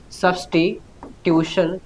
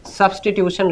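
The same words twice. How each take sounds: First: Broken slowly into syllables, "substitution"; drawn-out, softer note-taking pace; slow dictation. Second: Said in the usual way. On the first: Shown as a demonstration. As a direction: dictate it slowly and softly, piece by piece. Teacher dictating the term for note-taking.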